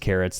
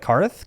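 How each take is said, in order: First: The name is said as two syllables ending in ts. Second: The name is said as one syllable ending in th. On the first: The speaker calls it right. "That's how you pronounce it" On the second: The speaker calls it wrong. "Look at that spelling, it threw me off. I was like"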